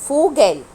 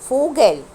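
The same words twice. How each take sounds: No difference in how they are said.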